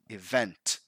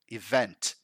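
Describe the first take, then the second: First: The stress falls on the second syllable. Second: The stress falls on the second syllable.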